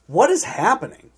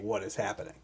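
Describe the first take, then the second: First: It is said loudly, in shocked surprise. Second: It is said plainly, as a calm question.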